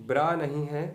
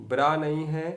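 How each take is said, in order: No difference in how they are said.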